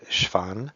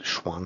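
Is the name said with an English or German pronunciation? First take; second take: German; English. First: The name is said with a German pronunciation. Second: The name is said with an English pronunciation.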